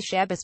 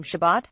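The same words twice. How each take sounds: First: "Shabbos" stressed on the first syllable, final S. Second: "Shabbat" stressed on the last syllable, final T; Israeli pronunciation. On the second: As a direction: say "Shabbat" the Israeli way, sha-BAT. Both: Shown as a demonstration.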